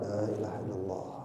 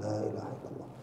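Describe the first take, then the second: First: It is said slowly, softly and briefly. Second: It is said slowly, softly and briefly.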